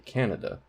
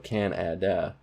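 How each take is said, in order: First: It is said fast with unstressed vowels as uh. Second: Every vowel is said clearly and fully. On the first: "When we say it fast" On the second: "you can enunciate it really clearly"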